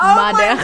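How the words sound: It is said with a heavy French accent. The speaker calls it wrong. "he says"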